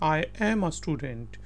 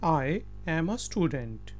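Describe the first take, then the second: Both takes have the same delivery.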